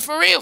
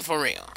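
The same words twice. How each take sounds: First: "for real" raised and pushed up high; emphatic for real. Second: "for real" dropped low and soft; quiet aside. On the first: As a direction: insist "for real" with a lifted, punched pitch. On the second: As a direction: mutter "for real" down to yourself. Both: Real, not acted. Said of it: "Not trying to get deep".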